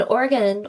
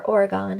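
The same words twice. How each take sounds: First: Oregon with a reduced last syllable, "gun"; Oregon ending in an unstressed "gun"; short-ending Oregon. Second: Oregon with a full "gone" ending; Oregon ending like the word "gone"; alternative Oregon pronunciation. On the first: Offers two ways of saying Oregon. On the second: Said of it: "however you would like to say". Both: Shown as a demonstration.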